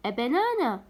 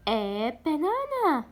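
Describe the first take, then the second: First: Said in the usual way. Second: Slow, stretched teacher reading of a banana; slow demo for pupils; slow model reading. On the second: Shown as a demonstration. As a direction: draw out a banana for repeating. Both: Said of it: "حرف صامت خلينا قبل A".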